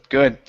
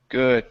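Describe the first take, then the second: No difference in how they are said.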